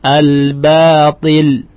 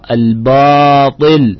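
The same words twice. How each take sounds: First: The long vowel after b sounds light and thin. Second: The long vowel after b sounds heavy and thick. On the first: The speaker calls it right. "Yang benar adalah lihat alif itu mengikuti huruf ba" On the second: The speaker calls it wrong. "mesti dibesarkan misalkan. Jadi al-ba, al-batil, ini salah"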